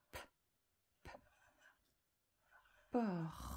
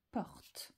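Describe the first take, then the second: First: "porte." stretched very long on R, then a separate final T; sounding out. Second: Said in the usual way. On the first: Shown as a demonstration. Teacher sounding out the word while writing, sounding out. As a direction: draw out "porte." slowly, releasing the T late. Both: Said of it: "Et j'entends le T".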